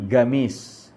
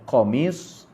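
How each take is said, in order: First: The word begins with a hard G sound. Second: The word begins with a deep throat Q sound. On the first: It is how local Arabic dialect speakers say it. "mereka menyebut qaf dengan ga" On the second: It is the formal standard Arabic form. "bahasa fushah lah"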